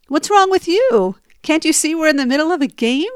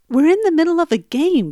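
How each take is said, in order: First: Higher, louder, fast snapping back; knee-jerk retort. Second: Firm, factual statement of the obvious; matter-of-fact. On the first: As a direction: fire it straight back at him. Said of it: "my knee-jerk reaction was". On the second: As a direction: state it like a rule, no debate. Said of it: "very matter-of-factly". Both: Retold or imitated.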